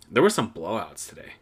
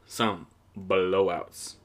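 First: Said in the usual way. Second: "Some blowouts" stretched out very slowly; slow drawn-out repeat. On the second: Shown as a demonstration. Podcaster savouring the blowouts, slow drawn-out repeat. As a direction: savour the words, drag them out.

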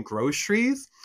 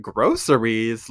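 First: "groceries" squeezed to GROH-shreez with a heavy sh; Michigan groceries. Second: "Groceries" in three drawn-out syllables with a clear s; careful unreduced groceries. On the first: Michigander correcting the talk show word, Michigan sh groceries. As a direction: say "groceries" with a shh in place of the s. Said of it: "do a heavy shh". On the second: Creator echoing a talk show in disbelief, careful unreduced groceries. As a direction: say "Groceries" slowly, sounding the s. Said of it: "she said the word groceries". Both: Shown as a demonstration.

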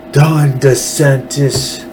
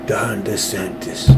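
First: Slow, drawn-out New York Italian mobster voice; hammed-up New York mafia accent, stretching the name. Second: Soft, slow New York Italian mobster voice; hushed, unhurried go at a New York mafia don. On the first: Host naming the governor, in a not-so-good New York mafia voice. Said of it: "New York Italian mafia voice". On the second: Host retrying the governor's name, in a quieter New York mafia voice. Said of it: "that's a little bit better". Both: Shown as a demonstration.

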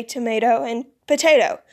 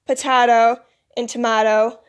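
First: Tomato and potato as "tuh-MAY-toh", "puh-TAY-toh"; long-A pronunciation. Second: Potato and tomato as "puh-TAH-toh", "tuh-MAH-toh"; broad-A pronunciation. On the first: Teachers use both ways, tomato and potato with long A. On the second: Teachers use both ways, potato and tomato with broad A. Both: Shown as a demonstration. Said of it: "both ways to say stuff".

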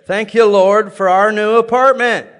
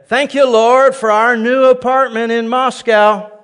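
First: Louder, higher praise of thanks; joyful praise. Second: Much louder, higher and slow praise; bold declaration. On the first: Preacher reenacting praise in bed with wife, joyful. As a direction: proclaim it with joy. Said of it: "worshiping the Lord in bed". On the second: Preacher declaring faith against his doubts, loud and slow. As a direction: shout the thanks over the doubts. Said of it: "I'd say". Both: Retold or imitated.

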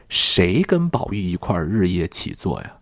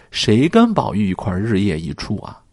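First: 跟 stressed, falling question tune; 重读"跟"，句尾下降. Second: 跟 stressed, question rising at the end; 重读"跟"，句尾上扬追问. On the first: (重读"跟"的反问) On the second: (重读"跟"，语调上扬) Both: Shown as a demonstration.

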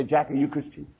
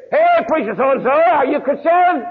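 First: Gentle question. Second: High, loud call blared out; loudspeaker shout. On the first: Preacher quietly asking a pastor friend, softly. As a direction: ask it quietly, one to one. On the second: Man calling at pastors' houses from a car loudspeaker, shouting. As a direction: bellow it like over a loudspeaker. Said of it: "he's got a loudspeaker on top". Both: Retold or imitated.

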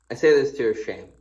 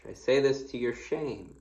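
First: Louder, faster, pointed rebuke; emphatic reading. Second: Said in the usual way. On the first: Shown as a demonstration. Preacher rereading the verse to the church, louder and faster. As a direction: read it as a sharp scolding.

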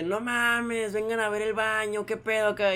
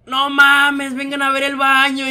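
First: Drawn-out, mild mock call; alarmed call. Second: Loud, high, drawn-out call; alarmed call. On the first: Supervisor summons coworkers to bathroom, toned-down alarmed call. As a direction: stretch it out like a half-hearted yell. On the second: Retold or imitated. Supervisor calls coworkers to the bathroom, alarmed shout. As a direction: call out in disbelief, stretching the words.

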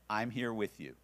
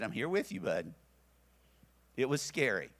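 First: Said in the usual way. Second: Reassuring. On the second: Retold or imitated. Holding frightened son.

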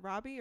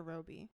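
First: "Robbie" with an open ah, RAH-bee; open first vowel. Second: "Robbie" with a long O, ROH-bee; long O vowel. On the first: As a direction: say "Robbie" to rhyme with hobby. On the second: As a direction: say "Robbie" like robe plus ee. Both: Shown as a demonstration. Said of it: "Is it Robbie or Robbie?".

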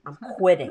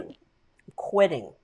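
First: Said in the usual way. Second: Slow, drawn-out repeat. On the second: Retold or imitated. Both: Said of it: "my father was like".

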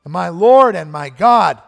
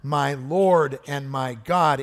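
First: Slow, much louder proclaiming cry. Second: Slow, weighty confession; slow heartfelt cry. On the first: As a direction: belt it out slowly like a confession of faith. Preacher voicing Thomas's cry. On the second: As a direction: lean into each word slowly. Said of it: "Thomas cries out". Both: Retold or imitated.

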